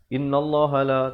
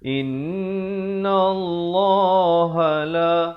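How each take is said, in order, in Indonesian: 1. Nun pendek tanpa dengung sengau. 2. Nun dipanjangkan dengan dengung sengau. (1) "tak betul ya" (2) "In itu kena dengung"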